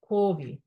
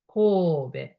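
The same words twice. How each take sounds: First: The final vowel sounds like 'ee'. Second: The final vowel sounds like 'eh'. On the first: This is how most English speakers say it. The speaker calls it wrong. "Everybody say Kobe" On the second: This is the Japanese way of saying it. The speaker calls it right. "English E is E, so Kobe"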